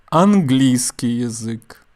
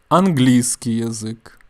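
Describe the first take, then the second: Both takes have the same delivery.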